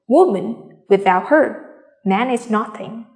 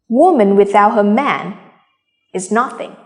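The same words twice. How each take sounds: First: Short pauses follow 'woman' and 'her'. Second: The sentence runs on without internal pauses. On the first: Without woman, man is nothing. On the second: A woman is nothing without her man.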